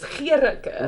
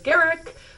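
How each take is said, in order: First: The name ends with a pronounced vowel. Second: The name ends without a final vowel. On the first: This is the original South African pronunciation. "the correct pronunciation is" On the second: This is the simplified everyday pronunciation. "sort of like Garrick with the silent E"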